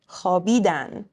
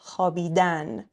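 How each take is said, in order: First: The stress is on the second-to-last syllable. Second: The stress is on the last syllable. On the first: It means they slept. "Next to last syllable" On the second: It is the infinitive, to sleep. "Infinitives always stressed on the last syllable"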